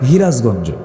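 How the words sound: It starts with h, in Sirajganj dialect.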